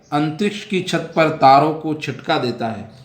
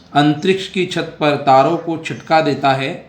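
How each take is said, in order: The two takes are said the same way.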